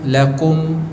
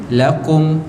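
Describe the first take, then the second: Both takes have the same delivery.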